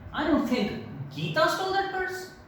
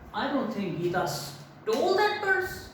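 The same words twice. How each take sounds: First: The word Geeta carries the main stress. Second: The word stole carries the main stress. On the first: Someone else might have stolen it. "So now you're putting stress on Geeta" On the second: She took it some other way than stealing. "if I give stress on stole"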